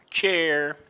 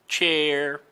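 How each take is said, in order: Both takes have the same delivery.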